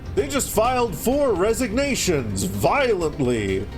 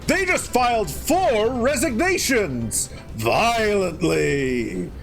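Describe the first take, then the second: First: It is said stiffly with flat intonation. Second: It is said with lively, varied intonation. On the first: It sounds like a machine voice. The speaker calls it wrong. "he used to say it with a very stiff inflection, kind of like that" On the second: It sounds like a real human voice. The speaker calls it right. "And now he says it like"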